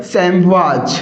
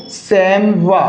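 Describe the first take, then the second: First: सैमवाज with a voiced final "z/j"; plural pronunciation. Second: सैमवा ending on an open "wa"; singular pronunciation. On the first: Teacher showing students the plural, सैमवाज ending in "j". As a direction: end सैमवाज on an audible "j" sound. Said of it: "और plural के अंदर". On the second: Teacher repeating the singular for students, सैमवा as "saim-wa". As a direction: say सैमवा with no final consonant. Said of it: "correct जो pronunciation है". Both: Shown as a demonstration.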